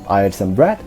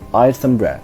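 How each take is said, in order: First: The voice rises at the end on 'bread'. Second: The voice falls at the end on 'bread'. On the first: The speaker has not finished speaking yet. "we use the rising tone when we want to let other people know that we haven't finished speaking" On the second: The speaker has finished speaking. "We commonly use the falling tone in statements when we have finished speaking"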